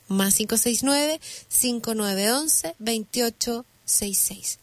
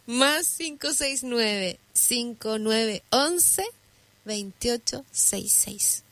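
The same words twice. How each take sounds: First: It is read at normal speed. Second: It is read more slowly.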